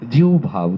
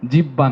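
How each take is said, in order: First: The middle has an h before the b. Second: The middle is a doubled b with no h. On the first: The speaker calls it right. "জিহ্বা শুদ্ধ উচ্চারণ" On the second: The speaker calls it wrong. "জিব্বা নয়"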